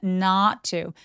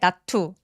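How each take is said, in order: First: The vowel in 'not' is long. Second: The vowel in 'not' is short. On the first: The speaker calls it right. "턱 엄청 길어지면서 소리도 길게 발음해야 되는 장모음이에요" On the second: The speaker calls it wrong. "not to 아니고요"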